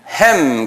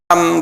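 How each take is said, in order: First: The vowel is like 'a' in 'cat'. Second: The vowel is an open 'ah' sound. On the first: The speaker calls it wrong. "영어권 사람들은 햄 그래요. 그분들이 잘못 발음하는 거예요" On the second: The speaker calls it right. "한국말로는 함 그러지만"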